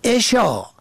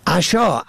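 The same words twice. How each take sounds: First: عشا as "eshā", short "e" first; kasra on first. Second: عشا as "ashā", short "a" first; fatha on first. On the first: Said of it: "به کسر اول". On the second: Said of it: "به فتح اول". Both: Shown as a demonstration.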